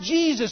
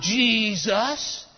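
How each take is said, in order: First: The name is said in a plain standard way. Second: The name is said in an imitated, marked way. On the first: This is the proper pronunciation. The speaker calls it right. "it's pronounced Jesus" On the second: This is how someone else said it. The speaker calls it wrong. "not Jesus"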